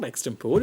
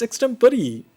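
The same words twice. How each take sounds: First: "extempore" as ex-tem-PORE; three-syllable "extempore", rhyming with "more"; mistaken pronunciation. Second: "extempore" as ex-TEM-puh-ree, high and slow; four-syllable "extempore", ending in a clear "ree"; corrected pronunciation. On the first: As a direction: end "extempore" on "pore", no final ee. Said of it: "It's not extempore". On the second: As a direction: sound the final ee in "extempore", drawn out. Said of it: "it's extempore". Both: Shown as a demonstration.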